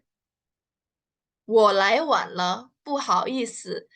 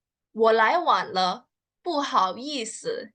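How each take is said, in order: First: Stretched syllable by syllable, very slow; very slow drill read. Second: Slow, even demo read; slow clear model sentence. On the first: Teacher repeats the line very slowly so students follow. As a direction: drag each syllable out for learners. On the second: Teacher models the sentence slowly for learners. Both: Shown as a demonstration.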